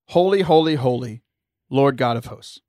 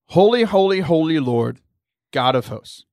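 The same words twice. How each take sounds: First: Lord God of hosts runs together without pause. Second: There is a pause between Lord and God.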